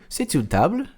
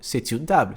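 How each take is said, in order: First: The voice rises at the end. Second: The voice falls at the end. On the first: It asks whether this is a table. "mudar a entonação" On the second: It states that this is a table. "se eu estou afirmando"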